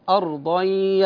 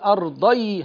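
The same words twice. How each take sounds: First: The merged nasal sound is held long. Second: The merged nasal sound is said quickly. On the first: The speaker calls it right. "لا أرضي هكذا" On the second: The speaker calls it wrong. "لا أقول أرضي هكذا"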